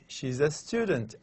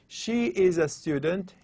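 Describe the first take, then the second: First: The first two words are pushed together. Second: The first two words are said separately.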